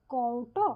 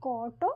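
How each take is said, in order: First: কওটো as kou-ṭo, the middle o barely formed; faint o-glide. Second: কটো with a long open ô, kôô-ṭo; কটো with no glide, kôô-ṭo; lengthened vowel. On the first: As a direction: glide lightly from ô to o in কওটো before ṭo. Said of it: "একটা ও এর মৃদু উচ্চারণ". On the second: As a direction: hold the ô in কটো straight into ṭo. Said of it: "কেউ বলে". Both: Shown as a demonstration.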